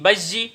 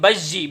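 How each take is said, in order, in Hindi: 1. दोहरा किया गया बीच का स्वर कठोर 'j' है। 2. दोहरा किया गया बीच का स्वर कठोर 'j' है।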